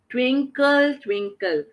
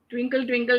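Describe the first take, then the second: First: It is said with lively, varied pitch. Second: It is said in a flat, blank voice.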